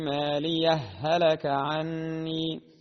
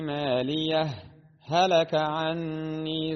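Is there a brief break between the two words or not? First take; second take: no break; break. First: The words run together with the h merged. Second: A brief silent break follows the first word. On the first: "الوجه الثاني فهو الإدغام وصلا" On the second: "فمن أحب أن يسكت فعليه أن يظهر الهاء الأولى هكذا"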